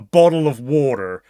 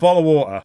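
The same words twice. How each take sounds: First: The T is a soft flap like D. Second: The T is replaced by a glottal stop. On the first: "But Americans call it a bottle of water" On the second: "I call it a bottle of water"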